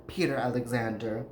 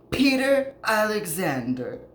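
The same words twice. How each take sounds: First: Said in the usual way. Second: "Peter Alexander" announced high and loud, like a big reveal; dramatic reveal. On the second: Real, not acted. Host revealing who the daughter wanted to marry, "Peter Alexander" punched high. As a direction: land "Peter Alexander" as the punchline, pitch leaping up. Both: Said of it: "none other than".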